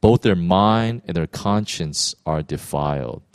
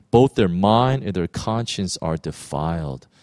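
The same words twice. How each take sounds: The two takes are said the same way.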